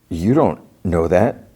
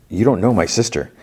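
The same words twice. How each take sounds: First: Slow, halting denial with a rise at the end; retold disbelief. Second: Higher, quicker retort, falling at the end; retold insistence. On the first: Brother disputing news of his sister's death, slow disbelief. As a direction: draw out "You don't" before "know that". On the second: Brother insisting she doesn't know his sister, firm retold objection. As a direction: push "don't" up, falling away on "sister".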